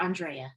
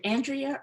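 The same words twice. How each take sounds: First: Andrea, first sound "ahn", then dray-uh; ahn-DRAY-uh pronunciation. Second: Andrea, first sound as in "ant", then dree-uh; AN-dree-uh pronunciation. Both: Shown as a demonstration. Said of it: "Is it Andrea or Andrea?".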